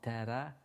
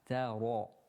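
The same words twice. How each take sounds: First: The r is said thin and light. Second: The r is said heavy and full-mouthed. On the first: The speaker calls it wrong. "not ta-ra" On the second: The speaker calls it right. "Ra is a kind of a full mouth when you recite the ra in order to get the correct sound"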